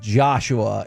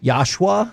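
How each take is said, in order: First: The name is pronounced the English way. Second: The name is pronounced the German way. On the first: The speaker calls it wrong. "specifically told it is not Joshua" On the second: The speaker calls it right. "I will say it how I was told to say it"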